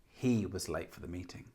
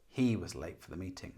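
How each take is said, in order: Both takes have the same delivery.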